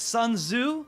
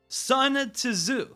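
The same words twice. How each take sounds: First: The second word begins without a T sound. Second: The second word begins with a T sound. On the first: The speaker calls it right. "you don't pronounce the T in that" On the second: The speaker calls it wrong. "I know I pronounced that wrong"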